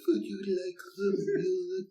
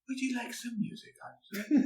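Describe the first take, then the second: First: It is said in a Doctor Spacelove voice. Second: It is said in a computer voice.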